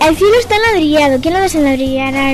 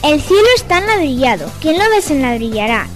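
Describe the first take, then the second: First: It is said at a faster pace. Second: It is said at a slower pace.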